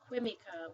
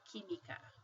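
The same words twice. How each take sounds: First: The u after the q is pronounced. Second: The u after the q is silent. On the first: The speaker calls it wrong. "we don't pronounce it que, química" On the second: The speaker calls it right. "we say química, like this. That Q U sounds like a K"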